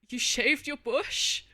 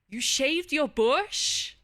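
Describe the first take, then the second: First: It sounds fearful and scared. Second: It sounds warm and supportive.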